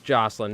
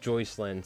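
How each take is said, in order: First: The first syllable sounds like 'joss'. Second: The first syllable sounds like 'joys'. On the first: The speaker calls it right. "It is Jocelyn" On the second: The speaker calls it wrong. "not Joycelyn. ... I was saying it wrong"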